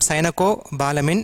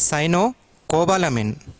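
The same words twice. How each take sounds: First: The word is not split after cyano. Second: The word is split after cyano. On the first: The speaker calls it wrong. "It is not cyanocobalamin" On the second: The speaker calls it right. "Cyano you have to pronounce, then cobalamin"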